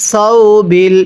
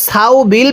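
First: সৌ said as one short glide "saw", not "sa-u"; correct pronunciation. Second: সাউ split into two syllables "sa-u" on purpose; wrong pronunciation. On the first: Teacher shows students the right way to say সৌ বিল, careful and clear. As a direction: say সৌ বিল with a single clipped diphthong. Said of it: "এটাকে সাউ বিল পড়লে পড়াটা সহি শুদ্ধ হবে না". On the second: Teacher shows students the wrong way to say সৌ বিল, split apart. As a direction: say সাউ বিল stretched as a mistake. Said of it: "পড়লে পড়াটা সহি শুদ্ধ হবে না". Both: Shown as a demonstration.

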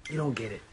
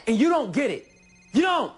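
First: Said in the usual way. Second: Shouted high and loud, building on "don't"; exasperated, full-voiced outburst; angry shout. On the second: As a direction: yell it in frustration, hammering "don't". Quarrel peaks.

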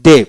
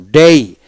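First: ডে with one pure e vowel; American pronunciation. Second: ডেই with an e-to-i glide; British pronunciation. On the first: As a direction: say ডে with no i glide at the end. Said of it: "American উচ্চারণ". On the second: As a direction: finish ডেই on a clear i. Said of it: "British উচ্চারণ". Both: Shown as a demonstration.

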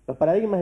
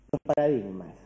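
First: "paradigmas" said higher and louder, stressed; emphatic repeat. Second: Said in the usual way. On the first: Shown as a demonstration. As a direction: hit "paradigmas" hard the second time.

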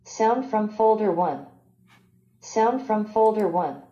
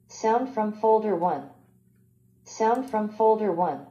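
No difference in how they are said.

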